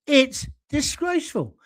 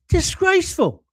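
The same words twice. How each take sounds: First: Said in the usual way. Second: Higher and louder, a sudden indignant cry; indignant outburst. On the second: Real, not acted. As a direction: spit out "Disgraceful" in high, loud outrage.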